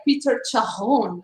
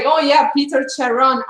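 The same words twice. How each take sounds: First: Charon with a throaty French R; Sim's French pronunciation. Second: Charon with a clear English R; Red's plain pronunciation. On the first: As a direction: say Charon as Sha-hon, French style. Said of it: "That pronunciation". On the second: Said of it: "Red was like". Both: Retold or imitated.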